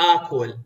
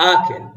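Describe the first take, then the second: First: "akul" with a rounded u in the second syllable; Baghdadi akul. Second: "akil" with an i in the second syllable; southern akil. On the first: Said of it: "we don't say, like". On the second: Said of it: "We say". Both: Shown as a demonstration.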